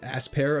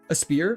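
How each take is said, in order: First: The word begins with a full 'ass' sound. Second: The word begins with a weak 'uh' sound. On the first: The speaker calls it wrong. "people get mad when I call it" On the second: The speaker calls it right. "I'm trying to work on pronouncing it properly"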